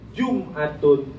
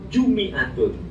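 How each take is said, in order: First: The m is followed by no vowel. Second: The m is followed by an i vowel.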